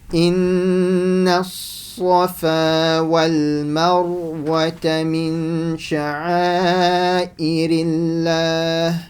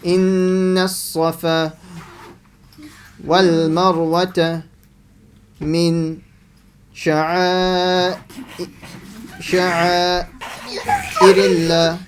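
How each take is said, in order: First: It is read smoothly in one breath. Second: It breaks off and repeats a word.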